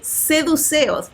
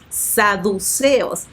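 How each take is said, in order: First: The first vowel is an 'e' sound. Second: The first vowel is an 'a' sound. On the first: The speaker calls it wrong. "varias veces dije seduceos" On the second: The speaker calls it right. "pronuncié mal la palabra saduceos"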